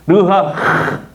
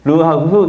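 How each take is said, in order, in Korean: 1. 마지막 ㅎ 소리는 거칠고 목에서 나는 소리예요. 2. 마지막 ㅎ 소리는 부드럽고 가벼워요. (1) "흐 발음을 잘해야 돼요" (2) "르하흐 이러면 안 되고요"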